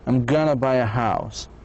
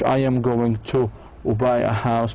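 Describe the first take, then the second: First: It is said fast and reduced. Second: It is said slowly and fully.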